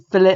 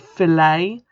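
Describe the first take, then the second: First: The word is said the non-American way. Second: The word is said the American way. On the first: The speaker calls it right. "instead of saying" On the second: The speaker calls it wrong. "which I know is what Americans say"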